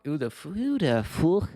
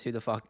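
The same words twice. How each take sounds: First: Slow, drawn-out, higher-pitched quoted catchphrase; Conor impression. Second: Said in the usual way. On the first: Streamer quoting a favourite classic line, imitating the fighter. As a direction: stretch it out in a put-on fighter's voice. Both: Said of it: "favorite Conor line he's ever come up with".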